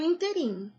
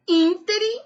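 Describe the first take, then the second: First: "interim" stressed in-te-RIM; wrong stress. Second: "íntere" stressed IN-te-rim; correct stress. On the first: Teacher warning against an error, last-syllable stress. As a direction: put the weight on RIM in "interim". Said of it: "e não". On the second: Teacher giving the correct form, first-syllable stress. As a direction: punch IN in "íntere". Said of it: "O certo é". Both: Shown as a demonstration.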